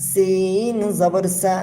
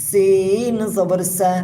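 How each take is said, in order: The two takes are said the same way.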